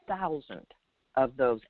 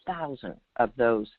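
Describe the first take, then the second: No difference in how they are said.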